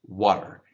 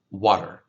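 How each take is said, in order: Both takes have the same delivery.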